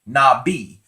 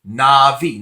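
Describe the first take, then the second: First: The middle consonant is a B sound. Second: The middle consonant is a V sound. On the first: This is how some other people say it. "some people say Nabi" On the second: "the bet that does not have the Degesh Lin in it would be pronounced uh, as a V"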